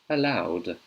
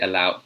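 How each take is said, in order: First: The ending is pronounced as a D sound. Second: The ending is pronounced as a T sound. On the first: The speaker calls it right. "So that's the D sound" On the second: The speaker calls it wrong. "if I read it with a T, you can't say"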